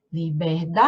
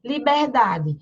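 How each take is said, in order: First: Liberdade with a very long held DA; li-ber-DAAAA-de, lower and stretched on the stressed syllable; calling out the word. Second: Said in the usual way. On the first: Shown as a demonstration. Calls word to find stress.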